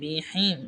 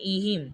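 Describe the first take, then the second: First: The word begins with a b sound. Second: The word begins with a glottal stop. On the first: The speaker calls it wrong. "এটা আমি ভুলে বা উচ্চারণ করে ফেলেছি" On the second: The speaker calls it right. "এখানে কিন্তু এটা হবে ইহিম, কারণ এই যে এটা হামজাজে"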